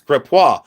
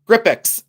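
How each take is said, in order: First: The name ends in a 'wah' sound, French style. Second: The name ends in an 'icks' sound, said quickly. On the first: The speaker calls it right. "when it's Grippois" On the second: The speaker calls it wrong. "if you're from Ohio, you say Grippix, and you say it real quick"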